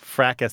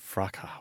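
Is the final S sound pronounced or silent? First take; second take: pronounced; silent. First: The word ends with an audible S sound. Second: The word ends without an S sound. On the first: This is the usual American way of saying it. "that's the one I hear most often here" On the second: This is the British way of saying it. "they say fraca with a silent S"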